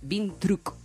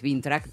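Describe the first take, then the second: First: The second syllable sounds like a short 'truc'. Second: The second syllable sounds like 'track'. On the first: The speaker calls it right. "pero es Vintruc, seca, así, seca" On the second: The speaker calls it wrong. "En realidad vos lo sentís que es Vintrack"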